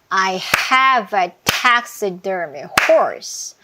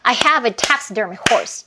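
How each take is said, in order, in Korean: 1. 느리고 일정한 박수 속도로 말합니다. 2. 조금 더 빠른 박수 속도로 말합니다. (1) "빨간 부분에서 박수 치면서 들어가 볼게요" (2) "이렇게 빨라지는 거예요"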